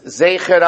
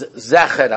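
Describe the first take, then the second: First: The first vowel sounds like 'ay'. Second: The first vowel sounds like 'eh'.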